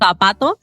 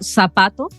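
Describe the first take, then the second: First: It is said in a Spanish accent, with th. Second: It is said in a Chilean accent, with s.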